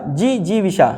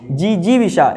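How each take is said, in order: Both takes have the same delivery.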